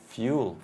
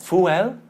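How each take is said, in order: First: A y sound comes before the vowel. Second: The vowel starts directly with no y sound. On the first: The speaker calls it right. "fuel with a y" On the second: The speaker calls it wrong. "It's not fuel"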